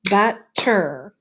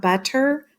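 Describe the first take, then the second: First: "butter" broken into two separate beats; split into syllables. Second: Said in the usual way. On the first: Shown as a demonstration. Teacher clapping out a word for pupils, "butter" in two beats. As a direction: clap out "butter" syllable by syllable, with a gap. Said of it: "if we clap out butter". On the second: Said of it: "So if we clap out".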